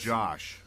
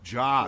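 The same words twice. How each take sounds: First: The name ends with an sh sound. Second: The name ends with a plain s sound. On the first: The speaker calls it wrong. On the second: The speaker calls it right. "There's no H here"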